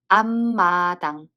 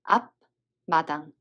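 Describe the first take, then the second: First: The first syllable ends in an m sound. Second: The first syllable ends in a b sound. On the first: The speaker calls it right. "we read them as" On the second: The speaker calls it wrong. "instead of"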